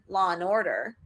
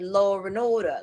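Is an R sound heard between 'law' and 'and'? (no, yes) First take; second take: no; yes. First: No R sound links law and and. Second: An R sound links law and and. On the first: "I'll just say law and order" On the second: "I won't say law and order"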